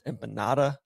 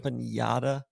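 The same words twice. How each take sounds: First: The middle consonant is a plain n sound. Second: The middle consonant is a 'ny' sound. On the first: The speaker calls it right. "It's empanada, There's no like squiggly line above the N" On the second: The speaker calls it wrong.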